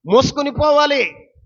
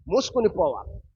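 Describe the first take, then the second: First: Preaching shout. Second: Said in the usual way. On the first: Real, not acted. Repeated phrase, loud take.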